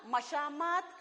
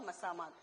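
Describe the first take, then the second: First: The second consonant is an 'sh' sound. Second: The second consonant is an 's' sound. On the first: The speaker calls it wrong. "हम मशामात मशामात बोलते हैं" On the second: The speaker calls it right. "सही लफ्ज क्या है? ... मसामात"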